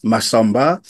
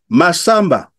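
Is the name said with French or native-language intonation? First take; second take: French; native-language. First: The name is said with French intonation. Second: The name is said with native-language intonation. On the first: The children did not recognize it as their name. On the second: The child recognized the name and answered.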